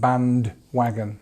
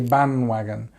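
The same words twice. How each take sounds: First: The D sound is clear and strongly pronounced. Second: The D sound is quiet and barely heard. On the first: "we don't say it so so strong" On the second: "this D becomes a little bit quieter"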